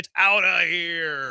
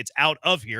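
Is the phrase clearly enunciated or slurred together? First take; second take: slurred; clear. First: The words are run together in an excited slur. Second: Each word is pronounced clearly and separately. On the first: "You're saying it's out of here" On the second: "You're not even saying it's out of here"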